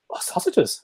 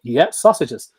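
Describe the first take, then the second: First: Whispered, higher "Oh, sausages" as the dog; dog's whispered thought. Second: Louder "Yeah, sausages" as the owner; owner's loud call. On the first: Retold or imitated. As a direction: voice the dog's secret realisation. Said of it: "he'll go". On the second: Shown as a demonstration. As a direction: reward the dog with a loud cheer. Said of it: "And you go".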